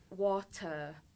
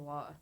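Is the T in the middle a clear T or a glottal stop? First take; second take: clear T; glottal stop. First: The middle T is pronounced clearly. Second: The middle T becomes a glottal stop. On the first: "It's like when" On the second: "For me, I just say"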